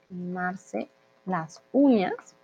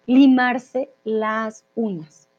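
First: Softer half-speed "Limarse las uñas", rising at the end; quiet, slow echo with a lifted ending; slow repetition. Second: Half-speed "limarse las uñas", falling at the end; firm, slow teaching take ending downward; slow model phrase. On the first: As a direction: repeat "Limarse las uñas" gently, word by word, ending upward. Teacher repeats new phrase for learners. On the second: Teacher models new phrase slowly. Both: Shown as a demonstration.

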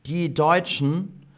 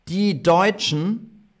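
Both takes have the same delivery.

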